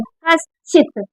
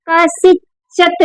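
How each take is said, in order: First: The sh and ch sounds form one cluster. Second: A vowel separates the s and ch sounds. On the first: The speaker calls it right. "ये मात्रा जो है ये इस पर है" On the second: The speaker calls it wrong. "कसिचत नहीं बोला जाएगा इसे"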